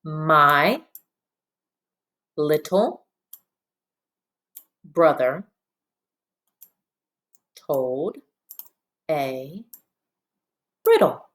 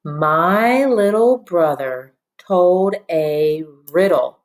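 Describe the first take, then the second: First: Long pause after every word; one word at a time. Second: Slow, smoothly joined sentence reading; nice and smooth. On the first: Teacher leading pupils in reading, one word at a time. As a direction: read word by word, each standing alone. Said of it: "one word at a time first". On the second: Teacher reading along with the class, nice and smoothly. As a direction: read it as one flowing line, unhurried. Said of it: "nice and smoothly". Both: Shown as a demonstration.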